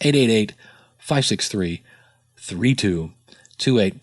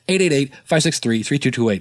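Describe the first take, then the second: First: The number is said slowly and clearly. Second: The number is rattled off very quickly.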